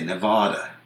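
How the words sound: It is said the way Eastern broadcasters say it. The speaker calls it wrong. "broadcasters from the East, for the most part ... say Nevada"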